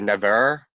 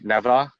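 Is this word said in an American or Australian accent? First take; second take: American; Australian. First: It is said in an American accent. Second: It is said in an Australian accent. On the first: "they say never" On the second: "when we say never"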